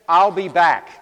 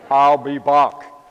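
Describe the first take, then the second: First: It is said in the speaker's plain accent. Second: It is said in an Austrian accent.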